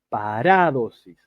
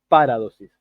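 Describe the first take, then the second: First: The stress is on the second syllable. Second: The stress is not on the second syllable. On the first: The speaker calls it right. "es paradosis" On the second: The speaker calls it wrong. "No es paradosis"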